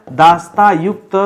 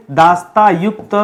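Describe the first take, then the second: No difference in how they are said.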